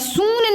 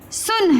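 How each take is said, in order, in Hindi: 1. स्वर लंबा खींचा गया है। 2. स्वर छोटा रखा गया है। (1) "सून नहीं हम बोलते" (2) "हम बोलते हैं मेरी बात सुन"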